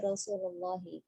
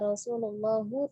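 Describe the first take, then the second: First: The word ends with an 'i' vowel. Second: The word ends with an 'u' vowel. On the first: The speaker calls it right. "tapi Rasulullahi" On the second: The speaker calls it wrong. "bukan qala Rasulullahu"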